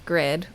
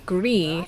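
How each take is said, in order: First: The name ends with a clear D sound. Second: The name ends without a D sound. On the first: The speaker calls it wrong. "instead of Grid" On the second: The speaker calls it right. "the D is actually silent, so it should be Gri"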